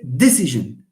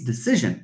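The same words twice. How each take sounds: First: The stress is on the first syllable. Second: The stress is on the second syllable. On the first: The speaker calls it wrong. "We don't say decision. This comes from French" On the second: The speaker calls it right. "In English, no, it's penultimate. We have a clear rule here. It's decision"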